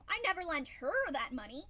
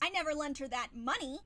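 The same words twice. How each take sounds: First: The stress falls on the word her. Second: The stress falls on the word money. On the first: Someone else received the money. "but I lent it to somebody else" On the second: Something other than money was lent. "I could have lent her something, but not money"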